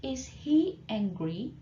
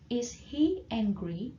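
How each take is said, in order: First: "Is he angry?" drawn out slowly, rising on "he"; slow model question. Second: Slow repeat. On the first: Teacher slowly models the question for the class. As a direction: spell it out slowly for learners. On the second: Teacher repeats the question slowly for students to copy. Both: Shown as a demonstration.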